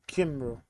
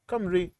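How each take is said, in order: First: The first syllable sounds like kim. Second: The first syllable sounds like kum. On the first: The speaker calls it wrong. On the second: The speaker calls it right.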